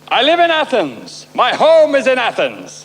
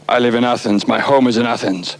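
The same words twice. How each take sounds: First: It is said slowly. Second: It is said fast.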